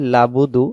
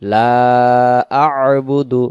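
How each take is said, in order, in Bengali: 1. গলার ব্যঞ্জনটি বাদ যায়, শব্দ দুটি একসাথে জুড়ে যায়। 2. শব্দ দুটির মাঝে গলার ব্যঞ্জনটি স্পষ্ট উচ্চারিত হয়। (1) "তখন এই আইন অক্ষরটা এখানে ছুটে চলে যাবে" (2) "এখানে উচ্চারণ হবে"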